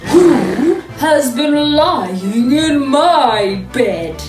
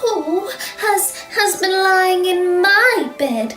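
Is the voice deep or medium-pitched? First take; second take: deep; medium-pitched. First: It is said in a big, deep growl. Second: It is said in a middle-sized voice.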